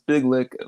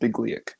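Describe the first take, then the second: First: The name ends with a short 'lick' sound. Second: The name ends with a 'lee-yak' sound. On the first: The speaker calls it wrong. "I at first was thinking it was Big Lick along with everyone else" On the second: The speaker calls it right. "but it's pronounced Bigliak"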